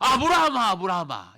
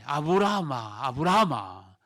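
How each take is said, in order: First: The name is called urgently and hurriedly. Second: The name is called calmly, as plain reading.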